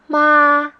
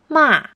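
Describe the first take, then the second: First: The word is said in the first tone. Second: The pitch starts high and falls low.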